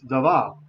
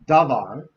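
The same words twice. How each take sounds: First: The stress is on the last syllable. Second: The stress is on the first syllable. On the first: The speaker calls it right. "it's davar" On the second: The speaker calls it wrong. "It's not davar"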